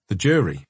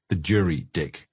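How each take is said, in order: First: Said in the usual way. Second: Put-on rasping Scottish accent, lower; raspy Scottish accent. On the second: A narrator's reading. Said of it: "he rasped in his Scottish accent".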